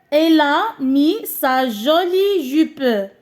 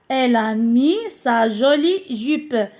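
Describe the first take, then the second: First: Very slow model read. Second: Said in the usual way. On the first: Shown as a demonstration. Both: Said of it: "إذا لبست".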